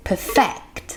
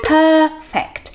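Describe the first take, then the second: First: "perfect" with the stress moved to FECT; stress on second syllable. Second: "perfect" with PER high and stressed, falling on -fect; stress on first syllable. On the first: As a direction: keep per- short and hit -FECT in "perfect". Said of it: "stress ที่ข้างหลังแทน". (เน้นเสียงพยางค์หลังของ "perfect") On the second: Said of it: "เสียง stress ที่คำแรกค่ะ". (เน้นพยางค์แรกของ "perfect" ให้เสียงสูง) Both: Shown as a demonstration.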